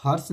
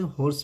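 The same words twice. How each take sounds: First: हॉर्स with an open vowel, "hars"; wrong pronunciation. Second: हॉर्स with rounded "o", "hoars"; correct pronunciation. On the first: Teacher bans the old reading, हॉर्स with open vowel. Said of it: "हॉर्स नहीं पढ़ते". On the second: Teacher sets the new reading, हॉर्स with "o". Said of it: "हॉर्स पढ़ेंगे". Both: Shown as a demonstration.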